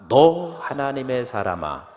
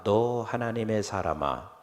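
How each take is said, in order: First: The word 너 is said with emphasis. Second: The word 너 gets no special emphasis.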